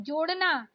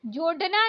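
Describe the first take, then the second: First: जोड़ना with flapped ड़; correct flapped ड़. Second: जोड़ना with hard ड stop; wrong hard D. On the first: Teacher correcting learners, flapped जोड़ना. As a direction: flick the ड़ in जोड़ना. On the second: Teacher showing learners the mistake, hard-D जोड़ना. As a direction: say जोड़ना with D, no flap. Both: Shown as a demonstration. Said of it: "नहीं".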